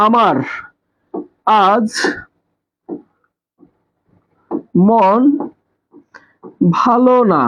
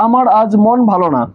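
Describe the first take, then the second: First: আমার, আজ, মন, ভালো না with long pauses between; word-by-word dictation. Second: Said in the usual way. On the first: Shown as a demonstration. Teacher writing a sample SMS for students, word by word. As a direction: spell out the message one word at a time, আমার ... আজ ... মন ... ভালো না. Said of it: "আমি কি লিখলাম?". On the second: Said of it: "এরকম করে তোমরা এসএমএস করো না".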